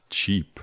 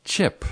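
First: "cheap" with a tense ee; long ee. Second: "Chip" with a brief, lax i; short i. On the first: Teacher showing the other word, long ee in cheap. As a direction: give cheap a clear ee. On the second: Teacher giving the quiz answer, short i in Chip. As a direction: keep Chip short, not ee. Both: Shown as a demonstration. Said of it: "not cheap".

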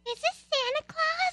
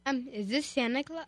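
First: Very high little-girl voice, hammed-up; most girly voice. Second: Put-on half-hearted little-boy voice; boy's voice. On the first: Child calls the colonel by mistake, put-on girly voice. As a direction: squeak it like a small girl on the phone. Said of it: "in your most girly voice". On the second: Boy caller asks the colonel, lightly put-on boy voice. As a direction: attempt a boy's voice, quietly and hesitantly. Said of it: "do it in a boy's voice again".

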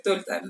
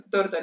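First: TORTA slipping out as "tolta", with L for R; slurred slip. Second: Said in the usual way. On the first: Real, not acted. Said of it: "Así de borracha está". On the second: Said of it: "torta, ¿no?".

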